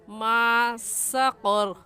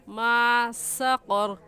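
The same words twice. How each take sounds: The two takes are said the same way.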